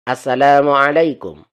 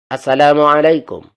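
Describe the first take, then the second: The two takes are said the same way.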